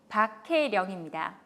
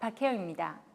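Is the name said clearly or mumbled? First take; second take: clearly; mumbled. First: The name is articulated clearly and distinctly. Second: The name is slurred and mumbled. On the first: The speaker calls it right. "정확한 발음으로 또박또박 읽는 것이 중요합니다" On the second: The speaker calls it wrong. "약간 이렇게 이름을 얼버무리는 경우가 있습니다"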